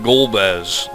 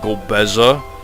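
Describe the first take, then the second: First: The name has two syllables with no final vowel. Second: The name has three syllables ending in a vowel. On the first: The speaker calls it right. "What was wrong with just calling him Golbez?" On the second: The speaker calls it wrong. "Nobody fucking uses that pronunciation"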